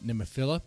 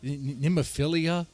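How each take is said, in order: First: The name is said with four syllables. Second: The name is said with five syllables. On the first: The speaker calls it right. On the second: The speaker calls it wrong.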